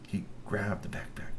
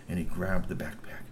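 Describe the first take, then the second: First: Hushed, breathy whisper for suspense. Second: Said in the usual way. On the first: A narrator's reading. Narrator whispers the theft to the child. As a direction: whisper it like a secret.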